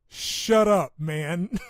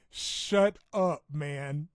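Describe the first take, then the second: First: Playful shouted shut up; laughing shout. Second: Louder shut up after a laugh; giggling shut up; laughing retort. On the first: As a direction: yell it back at friends, cracking up. Laughing retort to friends. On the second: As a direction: toss it back through laughter. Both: Real, not acted.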